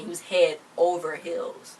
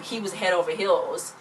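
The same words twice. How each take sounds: First: Head over heels said slowly, landing the pun; slow down on head over heels for the joke; drawn-out head over heels as a punchline; punchline delivery. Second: Said in the usual way. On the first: Retold or imitated.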